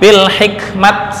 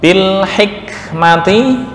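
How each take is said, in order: First: The word ends with a clipped 't' sound. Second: The word ends with a full 'ti' syllable.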